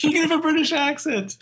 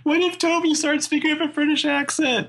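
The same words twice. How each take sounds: First: High, put-on mock British accent. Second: High put-on voice; silly voice. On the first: Friend repeats the joke in a high mock British accent. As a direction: play up a posh British accent. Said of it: "repeats joke in voice". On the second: Friend jokes about Toby going British, high silly voice. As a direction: toss off a joke in a high silly voice. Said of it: "joking about Toby".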